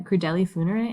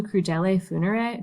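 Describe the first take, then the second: First: Crudeli funere with an i at the end of crudeli; corrected ending crudeli. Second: Crudele funere with an e at the end of crudele; wrong ending crudele. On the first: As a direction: fix it to crudeli, ending in a clear i. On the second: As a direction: say crudele ending in a clear e, the slip before the fix. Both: Shown as a demonstration.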